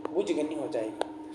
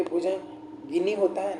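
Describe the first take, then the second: First: भुजगनी low, soft and slow, without "gi"; wrong form shown. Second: भुजंगिनी slowly, with a clear "gi" syllable; slow, softer भुजंगिनी with गि sounded; correct form shown. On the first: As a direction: say "bhuj-gani" for भुजगनी, voice dropped. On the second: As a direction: say bhu-jan-gi-ni for भुजंगिनी, unhurried. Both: Shown as a demonstration. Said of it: "न कि".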